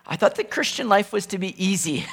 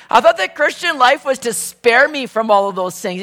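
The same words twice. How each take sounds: First: Said in the usual way. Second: Higher and louder, with a laugh. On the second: Pretend. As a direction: laugh it out in mock disbelief. Imagined complaint repeated with laugh.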